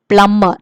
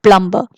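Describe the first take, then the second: First: The b after the m is silent. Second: A b sound is heard after the m. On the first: The speaker calls it right. "So we say plumber" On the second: The speaker calls it wrong. "not plumber"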